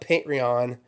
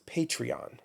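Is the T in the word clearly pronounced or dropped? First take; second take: dropped; pronounced. First: The T sound is dropped or softened. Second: The T sound is clearly pronounced. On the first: The speaker calls it wrong. "It's not Patreon" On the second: The speaker calls it right. "Pronounce the T"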